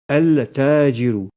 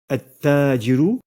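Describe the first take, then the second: First: The l is heard before a single t. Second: No l is heard; the t is doubled. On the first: The speaker calls it wrong. "et non pas" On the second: The speaker calls it right. "en doublant la lettre Ta et sans prononcer la lettre Lam"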